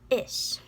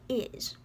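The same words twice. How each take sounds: First: The word ends with a hissing s sound. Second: The word ends with a buzzing z sound. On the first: The speaker calls it right. "It's is" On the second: The speaker calls it wrong. "don't say it like that, because there's no such thing as a Z sound in Irish"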